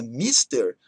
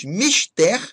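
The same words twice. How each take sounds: First: "mister" stressed on MIS, as in English. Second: "mister" stressed on TER, open E; stress on last syllable. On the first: Teacher warning against the English word, "mister" as MÍS-ter. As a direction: hit the first syllable of "mister". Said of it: "com a palavra inglesa mister". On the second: Teacher listing oxytone words, "mister" as mis-TÉR. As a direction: hit the final TER of "mister". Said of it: "com acento tônico na última sílaba". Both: Shown as a demonstration.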